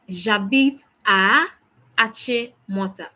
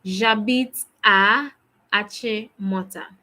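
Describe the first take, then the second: First: Slow, careful French, a touch louder; slow model answer. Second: Slow, deliberate repeat of J'habite à. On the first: Teacher modelling the answer for students, slow and clear. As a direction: model the answer slowly for the class. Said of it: "How do you say that?". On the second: Teacher repeating the answer on request, slow and clear. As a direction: say it once more, slowly and clearly. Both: Shown as a demonstration.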